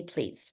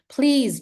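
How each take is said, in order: First: A quiet, lowered please; soft plea. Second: Please pushed out higher and louder; urgent plea. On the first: Teacher to teen in heels, softly pleading. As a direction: drop the word please low and soft. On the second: Teacher to teen in heels, loudly pleading. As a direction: hit the word Please hard and urgent. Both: Retold or imitated. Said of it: "listen to me".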